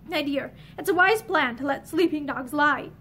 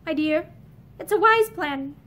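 First: Gentle. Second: Said in the usual way. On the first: Acted. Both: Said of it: "he said more gently".

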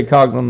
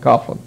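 First: Coughlin said as COG-lin; hard g pronunciation. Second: Coughlin said as COFF-lin; f pronunciation. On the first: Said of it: "the person you're talking to pronounces it". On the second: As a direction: say Coughlin with an f sound for the gh. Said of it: "pronounces it Coughlin". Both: Shown as a demonstration.

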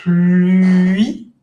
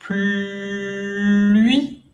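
First: "Pluie" louder, slow rising glide; teacher demo; pronunciation demo. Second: "Pluie" with U lips but an I sound, drawn out; pronunciation demo. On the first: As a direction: model "Pluie" keeping the I sound. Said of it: "nunca dejan de decir I". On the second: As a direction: hold "Pluie" slowly, rounding into I. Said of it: "boca de U, pero dicen I". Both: Shown as a demonstration.

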